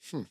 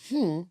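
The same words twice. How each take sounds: First: The hmm sounds like flat disapproval. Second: The hmm sounds like a puzzled question. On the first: The listener disapproves of what was said. "I changed my tone" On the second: The listener is asking for clarification. "I wasn't questioning"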